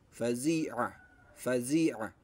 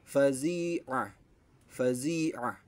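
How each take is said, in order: No difference in how they are said.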